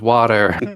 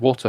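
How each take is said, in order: First: The word is said with an American accent. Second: The word is said with a British accent. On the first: The kids are speaking while in America. "when I'm over in America" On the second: The kids are speaking while in the UK. "when I'm filming over in the U K"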